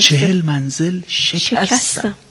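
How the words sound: The stress falls on the word شکستم. The speaker calls it right. "اگر تکیه رو روی شکستن بگذارید"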